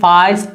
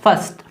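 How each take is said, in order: First: The vowel is a long 'ah' sound. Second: The vowel is a central 'er' sound. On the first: The speaker calls it wrong. "ना ही फास्ट पढ़ रहे हैं" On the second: The speaker calls it right.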